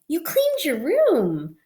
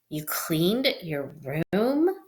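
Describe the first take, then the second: First: The speaker sounds excited and happy. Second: The speaker sounds disgusted and doubtful.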